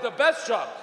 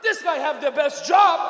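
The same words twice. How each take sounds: First: Said in the usual way. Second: Loud, slow, raised-pitch dad voice; awestruck father. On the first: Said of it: "And I went". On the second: Retold or imitated. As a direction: marvel as an impressed Dad, drawing it out. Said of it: "And he went".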